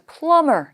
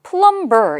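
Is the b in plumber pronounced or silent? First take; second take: silent; pronounced. First: The b sound is silent in the middle. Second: The b sound is pronounced in the middle. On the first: The speaker calls it right. "B는 묵음 발음을 하지 않습니다. 따라서 plumber 이렇게 읽어주셔야" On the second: The speaker calls it wrong. "plumber 이렇게 읽으시면 안 돼요"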